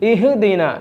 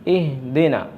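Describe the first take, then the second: First: The h sound bounces with a vibrating echo. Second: The h sound is smooth and moderate. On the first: The speaker calls it wrong. "അപ്പോൾ ഹായിൻ്റെ ശബ്ദം ഖൽഖലത്തായി വന്നു, ഒരു പ്രകമ്പനം കൊണ്ടുകൊണ്ട്" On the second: The speaker calls it right. "മിതമായ നിരക്ക് ഇഹ്ദിന ഇഹ്ദിന ഇങ്ങനെ കേൾക്കാവൂ"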